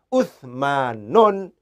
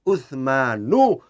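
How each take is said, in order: First: The name ends in u followed by n. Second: The name ends in a plain u vowel. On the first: The speaker calls it wrong. "tidak boleh Utsmanun" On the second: The speaker calls it right. "cara bacanya harus Utsmanu"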